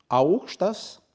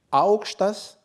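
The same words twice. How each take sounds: First: "aorchtas" with the pitch rising on the second half of "ao". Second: "aorchtas" slow, pitch high on the "a" of "ao" then falling. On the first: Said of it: "avec intonation douce montante". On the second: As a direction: start "aorchtas" high and let the tone drop. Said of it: "avec intonation rude descendante". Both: Shown as a demonstration.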